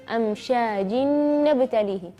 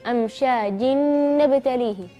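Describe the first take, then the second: Both takes have the same delivery.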